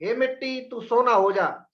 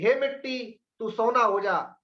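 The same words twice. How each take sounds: Both takes have the same delivery.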